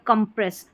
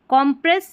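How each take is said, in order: First: The first syllable has a short 'u' vowel. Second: The first syllable has an open 'o' vowel. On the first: "तो इसको कंप्रेस पढ़ेंगे" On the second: "C O M को कॉम और कम दोनों ही पढ़ते हैं"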